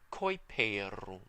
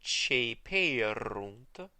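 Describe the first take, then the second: First: The word begins with a k sound. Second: The word begins with a ch sound. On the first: "in the restored pronunciation, you'll remember it's just Coiperunt" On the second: "the C that comes before it is pronounced Ch as well"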